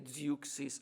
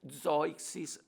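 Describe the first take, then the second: First: The name is pronounced the English way. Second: The name is pronounced the German way. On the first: "en anglais" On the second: "en allemand"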